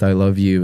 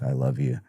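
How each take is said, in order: First: Said in the usual way. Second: Softer, dropping away, as if voice fading; fading quiet I love you. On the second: Retold or imitated. Son retelling his dying dad's final words, fading softly. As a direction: let the words slip away quietly like a last breath. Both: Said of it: "his voice got quieter".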